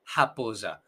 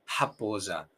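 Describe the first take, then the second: First: "japosa" with a firm guttural h at the start; "japosa" opening on a strong h; strong throaty R. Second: "japosa" with a gentle h at the start; low, soft "japosa" with a light h; softened R. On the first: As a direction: rasp the first sound of "japosa" from the throat. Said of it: "dejamos un poco más suave". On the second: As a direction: say "japosa" softly, easing the throat sound. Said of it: "un poco más suave". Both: Shown as a demonstration.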